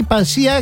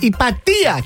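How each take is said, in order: First: The name is said with an s sound. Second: The name is said with a t sound. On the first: The speaker calls it wrong. "όχι Ιπασία" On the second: The speaker calls it right.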